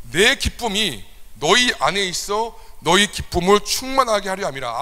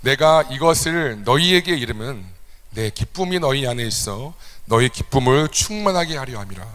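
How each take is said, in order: First: 내 rising, slower and higher emphatic reading; emphatic recitation. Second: Scripture reading. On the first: Pastor repeating the verse to drive it home, emphatic and higher. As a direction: proclaim the verse with joy. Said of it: "예수님의". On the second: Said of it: "같이 한번 읽겠습니다". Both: Shown as a demonstration.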